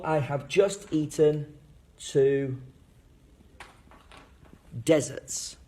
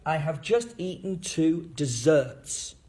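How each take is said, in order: First: Long pause, then "deserts" stressed on "DEZ"; first-syllable stress. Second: Slow sentence with "desserts" stressed on "-serts"; second-syllable stress. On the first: Teacher's contrasting example for kids, "deserts" stressed on the first syllable. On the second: Teacher's example for kids, "desserts" stressed on the second syllable. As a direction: lean on the last syllable of "desserts". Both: Shown as a demonstration. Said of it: "why word stress is important".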